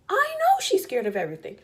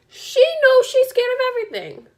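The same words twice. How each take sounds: First: High, insistent "I know"; exasperated emphasis. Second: Loud, very high "knows"; louder exasperated emphasis. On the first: Mom admits her daughter's fears, high insistent "know". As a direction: stress "know" in a raised pitch, at normal volume. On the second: Mom insists daughter knows her fears, loud high "knows". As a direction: punch "knows" and soar in exasperation. Escalating repeat of the previous line. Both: Real, not acted.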